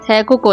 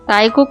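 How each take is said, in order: First: The first syllable sounds like 'tay'. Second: The first syllable sounds like 'tie'. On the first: The speaker calls it right. "थैकुक होता है" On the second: The speaker calls it wrong. "ताइकुक नहीं होता है"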